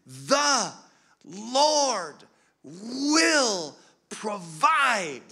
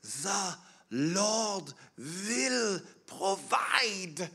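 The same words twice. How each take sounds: First: Loud, high, very drawn-out words, imitating mother; imitated emphatic insistence. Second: Put-on slow, high Swiss-accented quote of an elderly mother. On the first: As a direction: hammer out each word slowly and forcefully. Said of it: "stamped her foot and gripped my hands even harder and said it again". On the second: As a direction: imitate mother's Swiss accent, each word drawn out. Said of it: "in her Swiss accent".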